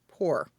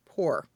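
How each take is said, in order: First: The p comes with little burst of air. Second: The same.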